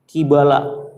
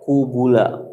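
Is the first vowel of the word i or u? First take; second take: i; u. First: The first vowel is i, the second a. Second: The first two vowels are both u. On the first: Punishment seen face to face. "bikasril qaf wa fathil iba" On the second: Punishment of many kinds. "bidomil qaf wal ba"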